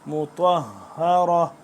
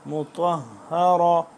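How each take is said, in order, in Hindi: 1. शब्द छोटी '-ra' की आवाज़ पर खत्म होता है। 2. शब्द छोटी '-ra' की आवाज़ पर खत्म होता है।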